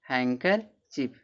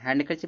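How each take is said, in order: First: No d sound is pronounced after the n. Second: A d sound is pronounced after the n. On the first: The speaker calls it right. "यन के बाद डी क्या रहेगा, silent रहेगा" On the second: The speaker calls it wrong. "हैंडकर चिप नहीं होता"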